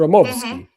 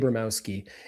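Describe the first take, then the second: First: It is said with a V, Russian style. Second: It begins with a long A and a B. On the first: This is the original form of the name. The speaker calls it right. "if you say it in its original Russian" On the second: This is the anglicized form of the name. The speaker calls it wrong. "like with a long A"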